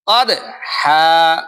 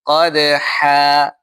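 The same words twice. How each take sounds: First: Slow "কদহা" with a forceful, jarring bounce on the d; overdone qalqalah. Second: Slow, even "কদহা" with only a slight bounce on the d; weak qalqalah. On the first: Teacher shows the mistake, "কদহা" with too strong a qalqalah. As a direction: punch the d of "কদহা" so it breaks apart from the rest. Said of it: "কলকলাটা যদি খুব জোরে সোরে আদায়". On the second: Teacher shows correct recitation, "কদহা" with a weak, blended qalqalah. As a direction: blend the d of "কদহা" evenly into the sounds either side. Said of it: "ডাইনে বামের উচ্চারণের সামনে মিল করে যদি বলি".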